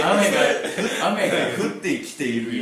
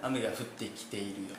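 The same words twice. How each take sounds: First: 雨が降ってきているよ laughed out, louder; laughing repeat. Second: Prim, proper Tokyo-style 雨が降ってきているよ, softly spoken; teasing friend parodies polite Tokyo Japanese, softly; mock Tokyo standard speech. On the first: Retold or imitated. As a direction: echo the line while cracking up. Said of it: "何それ？". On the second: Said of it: "ボクサーとか言うんやろな".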